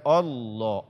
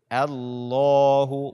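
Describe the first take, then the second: First: The opening vowel is heavy and thick. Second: The opening vowel is light and thin. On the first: The speaker calls it wrong. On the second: The speaker calls it right. "bacalah A-nya dengan tipis"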